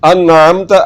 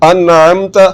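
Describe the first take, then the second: No difference in how they are said.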